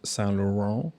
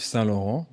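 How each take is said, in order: First: The name is said with an English pronunciation. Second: The name is said with a French pronunciation. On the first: The speaker calls it wrong. "not Saint Laurent" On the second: The speaker calls it right. "some croissant is is Yves Saint Laurent"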